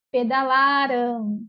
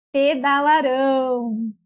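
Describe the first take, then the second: First: "pedalaram" slowly, with a long LA; stress on penultimate syllable. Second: "pedalarão" slowly, with a long final RÃO; stress on last syllable. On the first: Teacher modelling the past tense, "pedalaram" with LA stressed. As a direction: draw out peda-LAAA-ram in "pedalaram". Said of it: "a sílaba mais forte é a penúltima". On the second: Teacher modelling the future tense, "pedalarão" with RÃO stressed. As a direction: stretch the end of peda-la-RÃO in "pedalarão". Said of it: "ela é oxítona". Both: Shown as a demonstration.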